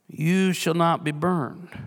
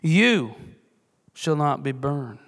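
First: It is read plainly, with no special stress. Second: The word you is stressed.

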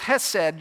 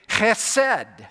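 First: It begins with a plain soft h sound. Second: It begins with a harsh throaty sound. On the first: The speaker calls it wrong. "you drop the C and pronounce it as chesed" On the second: The speaker calls it right. "If you're not probably spitting on the person in front of you, you're not really pronouncing it correctly. It's chesed"

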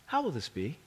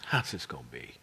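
First: It sounds sincere and genuinely wondering. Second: It sounds doubtful and skeptical.

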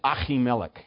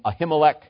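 First: The name is said with a harsh throaty sound. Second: The name is said with plain, soft sounds. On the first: The speaker calls it right. "in Hebrew ... it's kind of hard on the throat" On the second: The speaker calls it wrong. "most people pronounce this priest's name Ahimelech"

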